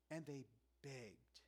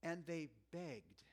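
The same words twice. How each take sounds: First: "And they begged" again, softer and slower; a quiet, slow echo of the quote; soft slow repeat. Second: "And they begged" read slowly, each word weighted; a slow, deliberate quote; slow emphatic reading. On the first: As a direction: let "And they begged" sink in, hushed and slow. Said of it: "This struck me fresh". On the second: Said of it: "check this next phrase". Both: Shown as a demonstration.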